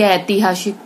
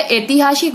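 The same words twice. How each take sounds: First: ऐतिहासिक with the first vowel swapped between "e" and "ai"; wrong vowel. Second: Said in the usual way. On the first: Shown as a demonstration. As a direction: swap the opening vowel of ऐतिहासिक to "ai". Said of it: "वो कहेंगे". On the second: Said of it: "शुद्ध होता है".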